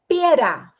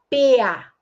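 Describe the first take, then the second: First: The R sound is pronounced. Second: The R sound is left out. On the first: The speaker calls it right. "em vez de falar pera" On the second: The speaker calls it wrong. "tem a omissão"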